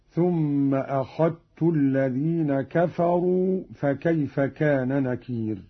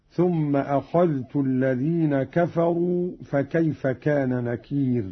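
First: أخذت said as "akhattu", one doubled t; dhal merged into ta. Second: Said in the usual way. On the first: Shown as a demonstration. Teacher demonstrating Qalun's reading, أخذت with dhal merged into ta. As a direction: recite أخذت with the dhal assimilated into the ta. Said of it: "بإدغام الذال في التاء". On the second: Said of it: "قرأ قالون بإدغام الذال في التاء".

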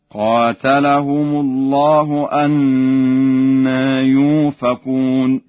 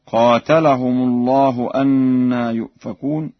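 First: Slow loud chant, «يؤفكون» as "yufakun" with long u; Warsh hamza turned waw. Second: Said in the usual way. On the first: Shown as a demonstration. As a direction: drop the glottal stop in «يؤفكون» for a pure long u. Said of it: "بإبدال الهمزة واوا خالصة في الموضعين هكذا". (تلاوة ورش بإبدال همزة «يؤفكون» واوا) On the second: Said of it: "قرأ ورش بإبدال الهمزة واوا".

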